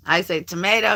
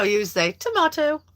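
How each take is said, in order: First: "tomato" said as to-MAY-to, plain American; tomato, the first vowel as in "may"; tomato with long a. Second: "tomato" said as to-MAH-to, high and put-on; mock posh to-MAH-to, voice lifted. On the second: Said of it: "It sounds so much cooler when you say it". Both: Shown as a demonstration.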